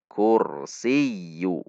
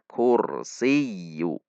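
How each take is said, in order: Both takes have the same delivery.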